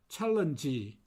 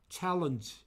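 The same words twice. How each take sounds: First: An extra vowel is added after the final consonant. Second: It ends on the consonant with no vowel. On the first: The speaker calls it wrong. "먼저 제가 틀린 발음으로 한번 해보겠습니다" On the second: The speaker calls it right. "이 없이"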